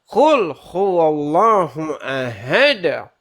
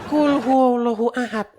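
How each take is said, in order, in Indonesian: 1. 'd' terakhir berakhir dengan pantulan gema. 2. 'd' terakhir berakhir datar, tanpa pantulan. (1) "tapi ... Harus ada, harus ada"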